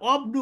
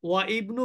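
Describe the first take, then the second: First: The hamza is dropped and the words join. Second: The hamza is pronounced as a separate word start. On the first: "অবনু বলবেন?" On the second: "ওয়া ইবনু বলবেন না"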